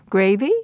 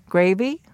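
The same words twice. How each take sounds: First: "Gravy" lifting in pitch, like a question; rising intonation. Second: "Gravy" as a statement, meant to fall in pitch; falling intonation. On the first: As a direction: make "Gravy" an offer, ending on a rise. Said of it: "So the rising intonation". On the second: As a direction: present "Gravy" as a fact rather than an offer. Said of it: "The falling intonation". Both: Shown as a demonstration.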